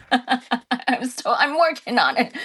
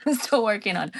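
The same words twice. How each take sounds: First: Said in the usual way. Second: Quick, breathy whispered repeat; laughing whisper. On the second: Real, not acted.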